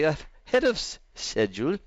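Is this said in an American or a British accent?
British. It is said in a British accent.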